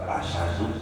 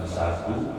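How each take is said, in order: First: It has a vowel, then sh, without h. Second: It starts directly with a plain s sound. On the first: "bukan asyadu" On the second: "bukan sadu"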